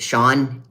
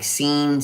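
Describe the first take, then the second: First: The name is said with an 'aw' vowel. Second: The name is said with an 'ee' vowel. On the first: The speaker calls it right. "my name is Sean" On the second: The speaker calls it wrong. "The others just botch it"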